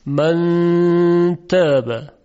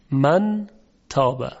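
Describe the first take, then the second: First: من تابه drawn out very slowly, with the نون hidden in a long hum; slow chanted من تابه; hidden nasal n. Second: من تابه with a clear نون before ت; crisp نون in من تابه; نون fully sounded in من تابه. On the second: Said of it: "نمیگیم من تابه". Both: Shown as a demonstration.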